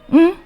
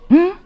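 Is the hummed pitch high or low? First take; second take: high; high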